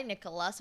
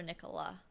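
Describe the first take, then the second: First: Nicholas, closing on a clear S; with final S. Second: Nicola, left open on "ah"; without final S. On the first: Streamer listing versions of a friend's name, Nicholas with S. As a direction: give Nicholas its S at the end. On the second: Streamer listing versions of a friend's name, Nicola without S. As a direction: end Nicola on the vowel, no S. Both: Shown as a demonstration. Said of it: "never sure if it's Nikolai".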